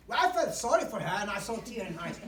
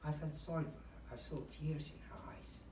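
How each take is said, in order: First: Loud and bright, no sadness; chirpy loud version; wrong cheerful delivery. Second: Gently sad, almost whispered; sad demo. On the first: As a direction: rattle it off loudly. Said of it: "You don't say". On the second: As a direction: let it sink, quiet and sorrowful. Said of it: "describe a sad situation". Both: Shown as a demonstration.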